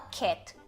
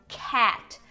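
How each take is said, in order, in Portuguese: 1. A vogal é pronunciada com a boca menos aberta. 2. A vogal é pronunciada com a boca bem aberta. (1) "a gente não fala cat" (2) "é cat. A tua boca tá bem mais aberta"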